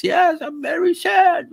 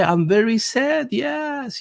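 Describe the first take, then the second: First: Shouted, very high, slow mock German accent; hammed-up German-accented whine; mock Klaus Schwab. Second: Slow, high mock German accent; mimicking Schwab in a German accent; mock Klaus Schwab. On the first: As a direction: wail it in an overblown German accent. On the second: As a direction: whine it in a put-on German accent. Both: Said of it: "Il dit, ouais".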